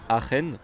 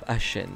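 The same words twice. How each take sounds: First: "Aachen" with a throaty ch; German-style pronunciation. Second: "Aachen" with a French sh sound; French pronunciation. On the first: Retold or imitated. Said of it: "il y en a qui disent que ça s'appelle". (« Aachen » à l'allemande, avec un ch raclé) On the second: Shown as a demonstration. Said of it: "j'ai l'accent français". (« Aachen » prononcé à la française, avec un ch doux)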